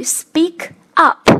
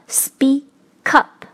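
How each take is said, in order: First: "speak up" as two separate words; unlinked. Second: "speak up" split as spea-kup; linked, syllable by syllable. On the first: Teacher introducing the phrasal verb, unlinked. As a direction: say "speak", pause, then "up". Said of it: "要做一个连读的处理". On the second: Teacher showing the linked result slowly. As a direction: hold back the k of "speak" to open "up": spea... kup. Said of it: "那就变成了". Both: Shown as a demonstration.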